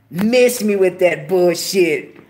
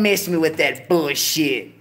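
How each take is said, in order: First: "Miss me with that bullshit" said slower and louder, hitting "Miss"; emphatic repeat. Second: Said in the usual way. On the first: Real, not acted. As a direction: lean hard into it, drawing out each word.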